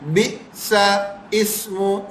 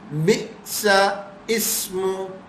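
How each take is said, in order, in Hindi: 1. L ध्वनि पूरी तरह छोड़ दी जाती है। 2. L ध्वनि पूरी तरह छोड़ दी जाती है।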